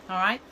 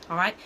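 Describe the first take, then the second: The two takes are said the same way.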